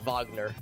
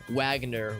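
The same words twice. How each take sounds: First: The name begins with a V sound. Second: The name begins with a W sound. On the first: This is how it is said over there. "whereas over there it'd be like V, so like Wagner" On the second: This is how it is said in the US. "like you U S we would call it like Wag like Wagner"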